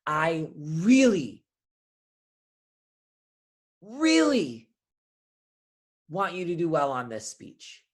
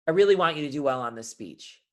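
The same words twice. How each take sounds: First: Big pauses around a repeated, drawn-out REALLY; long dramatic pauses. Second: Said in the usual way. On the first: Shown as a demonstration. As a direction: draw out each REALLY and let silence hang after it. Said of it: "pauses can do so much". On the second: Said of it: "Those say two different things".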